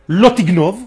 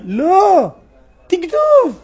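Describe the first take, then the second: First: The two words run together without a pause. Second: There is a pause after the first word.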